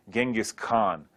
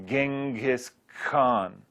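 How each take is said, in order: First: Said in the usual way. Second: GENGHIS KHAN slowly drawn out syllable by syllable; sounded out. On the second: Shown as a demonstration. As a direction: sound out "Genghis Khan" at half speed, separating each part. Slow repeat to show the sounds.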